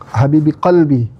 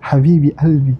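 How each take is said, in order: First: The second word begins with a q sound. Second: The second word begins without the q sound. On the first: This is the standard Arabic form. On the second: This is the Syrian Arabic form, softer.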